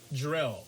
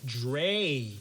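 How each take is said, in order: First: The name ends with an L sound. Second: The name ends without an L sound. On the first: The speaker calls it wrong. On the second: The speaker calls it right.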